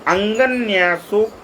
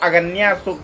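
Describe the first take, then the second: First: The first syllable has a nasal sound. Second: The first syllable has no nasal sound. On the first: The speaker calls it right. "यहाँ लिखा है अंगन्यासोक्त" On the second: The speaker calls it wrong. "साधक इसको अगन्यासोक्त मात्रो बीजम पढ़ने लगते हैं"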